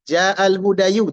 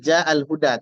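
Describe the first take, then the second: First: The last word ends with a 'yu' sound. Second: The last word ends with a plain 'a' sound. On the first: The speaker calls it wrong. "tak bisa dibaca hudayu" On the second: The speaker calls it right. "Yang ada adalah"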